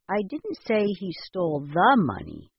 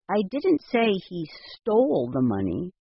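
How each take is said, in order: First: The stress is on the word the. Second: The stress is on the word stole.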